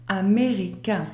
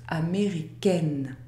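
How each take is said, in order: First: "américain" ending on a nasal vowel, no N sound; final nasal vowel. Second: "américaine" with an open è and a sounded final N. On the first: Teacher showing how the word is pronounced, final nasal vowel in "américain". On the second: Teacher showing a non-nasal vowel, "américaine" ending on a clear N. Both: Shown as a demonstration. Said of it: "Le mot se prononce".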